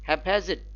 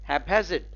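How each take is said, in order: The two takes are said the same way.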